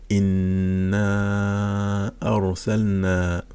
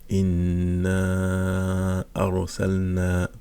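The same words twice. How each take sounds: The two takes are said the same way.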